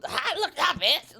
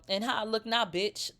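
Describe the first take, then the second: First: "How I look now" pushed higher, mildly pressed; mock pressed retort. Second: Said in the usual way. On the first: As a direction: imitate her sounding pressed, pitched up on "look". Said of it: "But it was". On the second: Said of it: "I wish it would have been like a".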